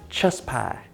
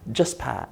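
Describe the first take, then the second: First: It is said in a Southern American accent. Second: It is said in a plain, neutral accent.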